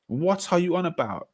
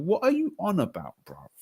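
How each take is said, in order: First: Higher scoffing repeat; incredulous retort. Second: Much higher, scoffing retort; incredulous retort. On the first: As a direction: scoff at the claim again. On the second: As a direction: shoot down the claim in disbelief. Arguing football trophies. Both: Real, not acted.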